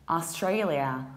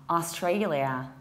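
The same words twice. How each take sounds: The two takes are said the same way.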